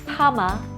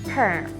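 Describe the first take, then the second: First: It ends in an open vowel without R. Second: It has a strong R sound before M. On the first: "in Korean it's often pronounced pama" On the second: "in English we hear the strong R sound"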